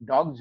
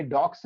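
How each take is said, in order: First: डॉग्स ending in a voiced "gz". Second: डॉग्स ending in a voiceless "ks"; wrong ending sound. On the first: Teacher giving the correction, डॉग्स with a "gz" ending. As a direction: say डॉग्स with a buzzing z at the end. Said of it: "जेड sound है". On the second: Teacher showing the error, डॉग्स with a "ks" ending. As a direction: say डॉग्स like "docks". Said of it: "ये डॉग्स नहीं". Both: Shown as a demonstration.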